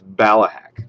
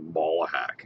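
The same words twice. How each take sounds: First: The first syllable does not sound like 'ball'. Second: The first syllable sounds like the word 'ball'. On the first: The speaker calls it right. "But it's Ballahack" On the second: The speaker calls it wrong. "you say it like it's like balls"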